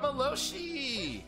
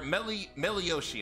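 First: The name is said with three syllables. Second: The name is said with four syllables. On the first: The speaker calls it wrong. "I said it wrong" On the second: The speaker calls it right. "Or Melioshi, I'm sorry"

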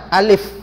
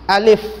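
The two takes are said the same way.

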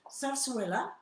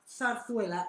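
First: The z sounds are said like a plain s. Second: The z sounds are said like th. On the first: This is the Catalan pronunciation. "it's with a real S in Catalan" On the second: This is the Castilian Spanish pronunciation. "that's not a lisp. It's an accent"

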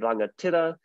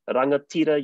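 First: The i vowel is a short ih sound. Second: The i vowel is a clear ee sound. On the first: English vowels have crept into the word. The speaker calls it wrong. "that shorter ih sound coming from English" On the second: This is the native Māori sound. The speaker calls it right. "Instead of"

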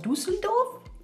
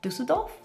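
First: It is said with a put-on foreign accent. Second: It is said in the speaker's ordinary accent. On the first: The speaker calls it right. "Maybe if I say it in an accent" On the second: The speaker calls it wrong. "I can't say Düsseldorf"

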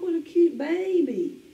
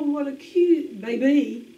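First: 'Baby' is stressed on its first syllable. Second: 'Baby' is stressed on its second syllable. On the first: The speaker calls it right. "We say" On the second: The speaker calls it wrong. "We don't say"

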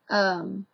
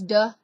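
First: The word starts with a 'th' sound. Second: The word starts with a 'd' sound. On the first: "the is duh" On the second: "the is duh"

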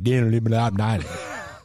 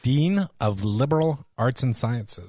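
First: The syllables are run together casually and quickly. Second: Every syllable is pronounced slowly and distinctly. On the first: "Otherwise, it just sounds like" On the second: "I feel like I have to enunciate carefully each syllable"

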